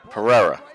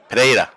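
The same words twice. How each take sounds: First: The name is said with an American pronunciation. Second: The name is said with a native Spanish pronunciation. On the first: The speaker calls it wrong. "what we would say is Pereira" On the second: The speaker calls it right. "her pronunciation of it"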